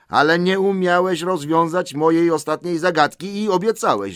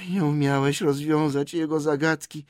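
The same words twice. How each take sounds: First: High, loud reproach; insistent protest. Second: High creature voice, less forceful; Gollum's voice. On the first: Bilbo reminds Gollum of his promise, insistently. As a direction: press the point, raised voice. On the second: Gollum repeats Bilbo's reproach, in a creature voice. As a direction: echo it in a peevish creature whine. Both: Acted.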